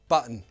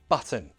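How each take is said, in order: First: The T is replaced by a glottal stop. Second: The T is a clear, released T sound. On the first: "Now the glottal T" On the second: "First, true T"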